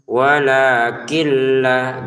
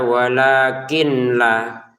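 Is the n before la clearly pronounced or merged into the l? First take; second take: merged; clearly pronounced. First: The n merges into the following l sound. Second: The n is pronounced clearly before the l. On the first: The speaker calls it right. "dibaca masukin dengan tanpa dengungan" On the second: The speaker calls it wrong. "jangan dibaca"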